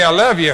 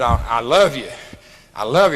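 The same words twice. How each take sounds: First: Plain declaration. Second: A low, sincere declaration of love; to the old gal: a low, heartfelt I love you; deep and heartfelt. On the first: Shown as a demonstration. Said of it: "if you say". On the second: Retold or imitated. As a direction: say it with deep, earnest feeling. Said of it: "said it with so damn much depth".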